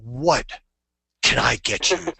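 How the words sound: It is said in a big, powerful way.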